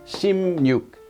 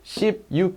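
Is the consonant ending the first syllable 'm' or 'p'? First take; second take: m; p. First: The first syllable ends with an 'm' sound. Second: The first syllable ends with a 'p' sound.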